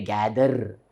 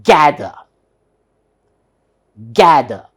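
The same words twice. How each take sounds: First: "gather" with a drawn-out r at the end; Indian-style "gather" with audible r; final r sounded. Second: "gather" loud on "GA", no r at the end; emphatic r-less "GA-ther"; silent final r. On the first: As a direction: say every letter of "gather", r included. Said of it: "we should not pronounce r". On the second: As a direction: punch "ga" and drop the r in "gather". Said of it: "need not be pronounced". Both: Shown as a demonstration.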